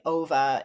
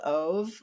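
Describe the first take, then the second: First: The name is said with a Swedish pronunciation. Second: The name is said with an American pronunciation. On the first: The speaker calls it right. "It's like Ova in Swedish" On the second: The speaker calls it wrong. "which I know I'm mispronouncing"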